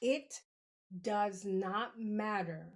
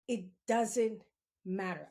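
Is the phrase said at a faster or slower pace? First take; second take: slower; faster. First: It is said slowly and deliberately. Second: It is said at a normal, quicker pace.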